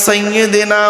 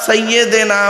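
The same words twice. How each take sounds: No difference in how they are said.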